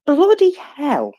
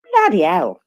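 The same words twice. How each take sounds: First: A posh English "bloody hell", drawn out slowly; "bloody hell" said the English way, stretched and high; very English accent. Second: Said in the usual way. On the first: Shown as a demonstration. Host doing a mock very English accent for the audience. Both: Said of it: "in my very English accent".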